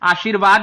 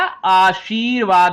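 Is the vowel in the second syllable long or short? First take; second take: short; long. First: The i vowel in the second syllable is short. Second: The i vowel in the second syllable is long. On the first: The speaker calls it wrong. "आशीर्वाद नहीं होता बेटा" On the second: The speaker calls it right. "बड़ी ई लगती है"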